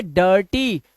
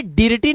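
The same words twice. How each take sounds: First: डर्टी with an "uh" vowel before r; correct dirty. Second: DIRTY misread as डिर्टी, short "ih" before r; mispronounced dirty. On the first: Teacher applying the i-r rule, डर्टी with an "uh" vowel. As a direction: say डर्टी in two drawn-out syllables. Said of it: "तो इसे पढ़ेंगे डर्टी". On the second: Teacher warning pupils off a misreading, डिर्टी with short i. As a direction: say डिर्टी with the i sounded. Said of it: "डिर्टी नहीं करेंगे". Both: Shown as a demonstration.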